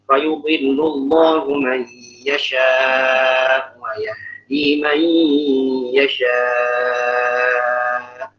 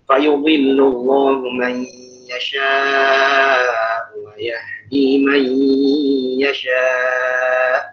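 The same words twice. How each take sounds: First: The final long vowel is held extra long. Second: The final long vowel is held a medium length. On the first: "yang yasha yang kedua lebih panjang" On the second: "tawassut tawassut empat empat"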